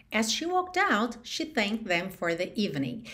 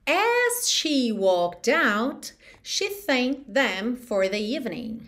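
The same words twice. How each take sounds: First: Said in the usual way. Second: Slow, carefully spaced English model; slow model sentence. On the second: Shown as a demonstration. Teacher modelling an English sentence for learners, slow and careful. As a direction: say it slowly, word by word.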